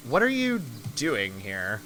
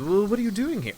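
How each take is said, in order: First: Lightly voiced character, lower and slow; slow the question right down, slightly lower; player character Harmony. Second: Higher-pitched in-character question; player character Harmony. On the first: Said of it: "I forgot who he was". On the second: Acted. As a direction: ask it in a lifted, lighter character voice. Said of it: "then Harmony, my character, says".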